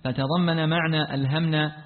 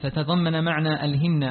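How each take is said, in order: First: ألهمنا read alhamnā, with 'a' after h; mispronounced imperative. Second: ألهمنا read alhimnā, with 'i' after h; corrected imperative. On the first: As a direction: say ألهمنا as past-tense alhamnā. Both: Real, not acted. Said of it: "ألهمنا".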